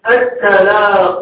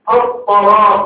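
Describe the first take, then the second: First: The first consonant is a light, plain t. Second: The first consonant is a heavy, emphatic t. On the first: The speaker calls it wrong. "منشأ هذا اللحن من ... الصفات" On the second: The speaker calls it right. "فالذي يقرأ مثلا الطلاق"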